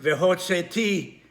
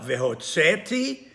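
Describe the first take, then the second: First: Vehotzeti with the stress on final "ti"; stress on last syllable. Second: Vehotzeti stressed on "tze", the "ti" light; stress before last syllable. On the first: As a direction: lean on the closing "ti" of Vehotzeti. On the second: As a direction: lean on "tze" in Vehotzeti, drop off the ending. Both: Shown as a demonstration. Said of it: "not on the last syllable".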